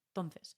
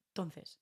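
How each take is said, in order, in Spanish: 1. La primera vocal se omite, se dice rápido. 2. La primera vocal se omite, se dice rápido.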